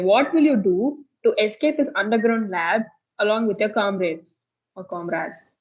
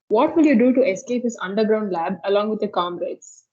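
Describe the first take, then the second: First: It is read very slowly. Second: It is read at normal speed.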